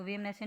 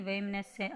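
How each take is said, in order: First: वेमनस्य with narrow e, as vemanasya; wrong e vowel. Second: वेमनस्य with open ai, as vaimanasya; ai vowel. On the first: Teacher shows the mistake, वेमनस्य starting ve. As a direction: begin वेमनस्य on ve. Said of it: "नहीं". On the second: Teacher gives the correction, वेमनस्य starting vai. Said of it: "ऐ की मात्रा". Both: Shown as a demonstration.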